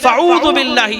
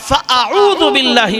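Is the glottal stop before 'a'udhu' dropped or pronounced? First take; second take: dropped; pronounced. First: The glottal stop before 'a'udhu' is dropped. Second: The glottal stop before 'a'udhu' is clearly pronounced. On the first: The speaker calls it wrong. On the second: The speaker calls it right.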